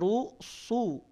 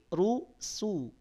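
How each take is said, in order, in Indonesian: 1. Bunyi s itu tebal dan berat. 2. Bunyi s itu tipis dan ringan. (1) "Tidak rusu" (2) "tapi rusu. ... tidak tebal"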